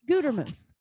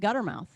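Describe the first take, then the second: First: The first vowel is a long 'oo' sound. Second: The first vowel is short, like 'gutter'. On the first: The speaker calls it right. "one T and a long U" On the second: The speaker calls it wrong. "a lot of people call me Guttermouth, and it's really annoying"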